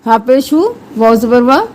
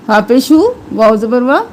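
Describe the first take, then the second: No difference in how they are said.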